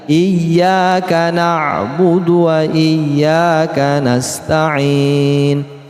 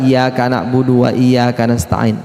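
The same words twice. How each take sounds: First: The y in iyyaka is doubled and pressed. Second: The y in iyyaka is short and light. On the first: The speaker calls it right. "harus dibaca, ditekan" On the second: The speaker calls it wrong. "kadang ada orang membaca"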